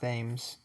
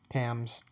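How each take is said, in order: First: The word begins with a th sound. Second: The word begins with a plain t sound. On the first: The speaker calls it wrong. "I know it's not Thames, like how it's spelled" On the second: The speaker calls it right. "It's it's it is the t sound"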